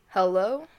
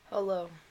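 First: It is said loudly. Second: It is said quietly.

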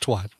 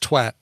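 First: It is pronounced the American way. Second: It is pronounced the Irish way.

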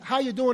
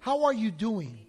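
First: It is asked in a quick, casual way. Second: It is asked in a sincere, earnest way.

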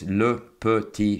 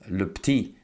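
First: The vowel in 'petit' is clearly pronounced. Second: The vowel in 'petit' is dropped.

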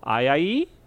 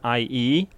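First: The opening vowel sound is said twice. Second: The opening vowel sound is said once.

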